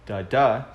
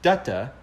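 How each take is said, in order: First: The stress is on the second syllable. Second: The stress is on the first syllable. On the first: This is the iambic meter. "iambic is da da, so unstressed stressed" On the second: This is the trochaic meter. "first one stressed"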